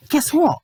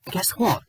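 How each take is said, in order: First: Rising intensity. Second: Said in the usual way. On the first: Real, not acted. Reviewer baiting viewers before a rant, teasing build. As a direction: lean in with "Guess what?".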